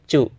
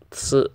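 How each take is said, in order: First: The syllable begins with a ch sound. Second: The syllable begins with a ts sound. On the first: The speaker calls it wrong. "paling rata-rata orang bilangnya cu" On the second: The speaker calls it right. "giginya sama, dirapetin sama kayak si"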